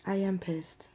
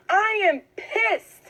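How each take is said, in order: First: Whispered anger. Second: Slow, high, exasperated declaration; pissed off, drawn out. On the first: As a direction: whisper it, voiceless and intense. Quiet repeat to viewer. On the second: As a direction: stretch it out in real anger. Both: Real, not acted.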